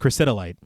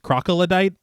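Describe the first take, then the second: First: The word begins with a 'kriss' sound. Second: The word begins with a 'crock' sound. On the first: The speaker calls it right. "but it's chrysitolite" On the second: The speaker calls it wrong. "both characters pronounce it as crocodite"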